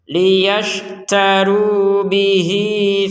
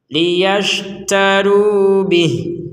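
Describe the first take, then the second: First: The final vowel is held for two beats. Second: The word ends abruptly with no final vowel. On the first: The reader joins it to the next word. "Kalau digabungkan menjadi dua harokat" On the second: The reader stops at this word. "Kalau kita berhenti akan menjadi bih, tidak ada panjang sama sekali"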